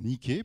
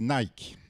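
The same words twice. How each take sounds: First: The brand name is said the Greek way. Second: The brand name is said the everyday French way.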